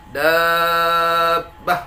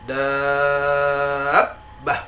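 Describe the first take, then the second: First: "dabbah" held long and level, b unstressed; flat, no nabr. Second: "Dabbah" long, ending in a pressed catch; stretch, then stress the b in "Dabbah"; an-nabr before doubled b. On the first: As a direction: keep "dabbah" monotone throughout. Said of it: "Jangan datar". ("dabbah" datar tanpa tekanan) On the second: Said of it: "tetapi ada penekanan suara". ("Dabbah" panjang dengan penekanan suara) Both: Shown as a demonstration.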